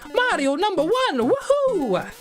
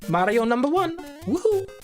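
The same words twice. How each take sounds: First: It is a stronger, more convincing Mario voice. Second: It is a weak, unconvincing Mario voice.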